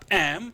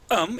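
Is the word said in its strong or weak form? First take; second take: strong; weak. First: The word is said fully, with a clear vowel. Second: The word is reduced, with a weak vowel.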